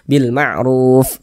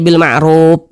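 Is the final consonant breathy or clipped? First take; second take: breathy; clipped. First: The final f has audible breath flowing out. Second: The final f has no audible breath flow. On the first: The speaker calls it right. "harus ada nafas yang mengalir" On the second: The speaker calls it wrong. "nggak ada aliran napasnya, jangan"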